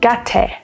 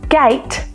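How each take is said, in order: First: The vowel in the word is short. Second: The vowel in the word is long. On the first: The speaker calls it wrong. "they might read it as gate, because they have only learned that the A makes the A sound" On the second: The speaker calls it right. "when students get to a word like gate"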